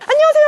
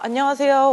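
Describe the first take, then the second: First: The greeting is loud and lively, full of energy. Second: The greeting is flat and routine, like reciting. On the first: The greeting is sincere and warm. The speaker calls it right. "이렇게 크게" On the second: The greeting is a fake, scripted formality. The speaker calls it wrong. "가식처럼 매뉴얼처럼"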